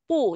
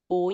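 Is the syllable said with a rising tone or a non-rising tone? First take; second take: non-rising; rising. First: The syllable is said without a rising tone. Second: The syllable is said with a rising tone. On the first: It comes before any other tone. "còn tất cả các trường hợp khác nó đều đọc là pu" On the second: It comes before a fourth-tone syllable. "nó chỉ đi với thanh bốn thì nó mới đọc là pú"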